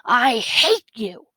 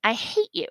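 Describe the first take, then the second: First: Drawn-out, higher yelled quote; mild mock yell. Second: Light, teasing delivery without a laugh; lightly joking. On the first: Teacher reads out a character's angry line, mild yell. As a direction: stretch it out like a contained yell. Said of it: "So she yelled". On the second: Acted. Teacher reads the character's good-mood line, lightly joking. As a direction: say it as good-humoured teasing, not yelled. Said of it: "She laughed".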